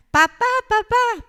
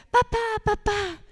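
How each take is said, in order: First: Put-on high, loud, slow wail of a child; a boy wailing for his dad; crying child's yell. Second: Put-on high whiny child calling his dad; a small boy begging his father; pleading child. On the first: Boy crying and yelling at father by the toy shop. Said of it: "empieza a llorar y a gritar". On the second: Little boy begging dad outside the toy shop, high and whiny. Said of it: "Y el niño empieza".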